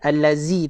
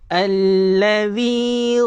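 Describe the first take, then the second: First: The middle consonant is a buzzing z sound. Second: The middle consonant is a soft th sound. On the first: The speaker calls it wrong. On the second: The speaker calls it right.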